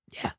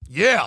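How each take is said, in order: First: The yeah sounds unsure and low-key. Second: The yeah sounds sure and emphatic. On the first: The speaker calls it wrong. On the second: The speaker calls it right.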